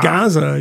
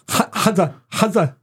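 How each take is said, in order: First: The word begins with a plain English G. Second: The word begins with a harsh guttural throat sound. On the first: The speaker calls it right. "He just says Gaza" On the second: The speaker calls it wrong. "you just need to get guttural about everything"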